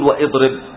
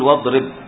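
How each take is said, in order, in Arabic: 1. تُنطق همزة بعد 'wa'. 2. تأتي 'wa' مباشرة بدون همزة. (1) "ما تقول واضرب" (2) "تقول واضرب"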